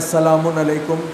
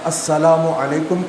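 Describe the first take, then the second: First: The first word ends with an added 'n' sound. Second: The first word ends in a plain 'u' vowel. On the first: The speaker calls it wrong. "गलत है" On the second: The speaker calls it right. "या अस्सलामु अलैकुम कहें"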